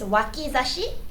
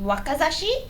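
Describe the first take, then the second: First: The second vowel is an "i" sound. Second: The second vowel is an "a" sound. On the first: It refers to the armpit, where the sword goes. The speaker calls it right. "So it's wakizashi" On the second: It suggests stabbing the youth. The speaker calls it wrong. "it's like waka or being young"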